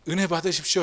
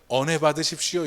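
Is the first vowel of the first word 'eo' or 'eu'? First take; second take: eu; eo. First: The first vowel is a close 'eu' sound. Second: The first vowel is an open 'eo' sound. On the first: The speaker calls it right. "해야 되는데" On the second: The speaker calls it wrong. "이렇게 되니까"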